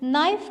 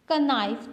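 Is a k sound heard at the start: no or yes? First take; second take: no; yes. First: The word begins directly with the n. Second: A k sound comes before the n. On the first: The speaker calls it right. "आप तो नाइफ कहते हैं" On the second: The speaker calls it wrong. "का नाइफ तो नहीं बोलते ना"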